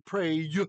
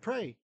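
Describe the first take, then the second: First: The final y is said as a consonant. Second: The final y is said as a vowel. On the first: The speaker calls it wrong. "We don't say pray" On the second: The speaker calls it right. "we say pray. It's already a vowel sound"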